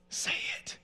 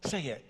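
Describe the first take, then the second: First: Forceful whisper from an inner voice; whispered urging. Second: Said in the usual way. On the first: Retold or imitated. Inner voice urges the son to speak up, whispered. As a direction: whisper the command insistently.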